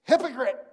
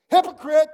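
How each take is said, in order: First: Loud, cutting call of hypocrite; Jesus calling out the hypocrite with force; sharp rebuke. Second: Very loud, high, stinging hypocrite; shouted rebuke. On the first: Jesus calls out hypocrites, a loud sharp rebuke. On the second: Jesus rebuking the hypocrite, a shouted accusation. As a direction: throw the word at them like an accusation. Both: Acted.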